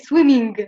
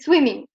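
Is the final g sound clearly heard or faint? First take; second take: clear; faint. First: The final g is clearly and fully pronounced. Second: The final g is nasal and barely heard. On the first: The speaker calls it wrong. "You don't say swimming" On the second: The speaker calls it right. "this G at the end is very nasal. You cannot very hear it"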